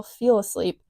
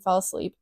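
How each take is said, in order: First: "feel" with a long ee vowel, not fell; misspelling read out. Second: Said in the usual way. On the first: Shown as a demonstration. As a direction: stress the written "feel", long ee. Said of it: "Did not say fell, feel asleep". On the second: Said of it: "Did not say fell".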